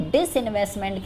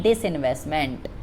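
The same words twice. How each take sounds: First: Said in the usual way. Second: disinvestment said alone, lower and falling; term repeated for emphasis. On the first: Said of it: "English में इसको क्या कहते हैं". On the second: Shown as a demonstration. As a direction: set disinvestment apart, lower and deliberate. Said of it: "इसको disinvestment कहते हैं".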